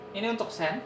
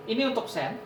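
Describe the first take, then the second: No difference in how they are said.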